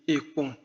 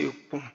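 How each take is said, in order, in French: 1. La première syllabe se dit en insistant. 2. La première syllabe se dit sans insister. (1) "on insiste un peu plus sur le e" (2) "la lance c'est ekon"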